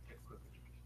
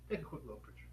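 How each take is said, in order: First: Breathy whispered aside, much softer. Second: Said in the usual way. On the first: Real, not acted. Host whispering to viewers to snap the book, a quick whispered aside.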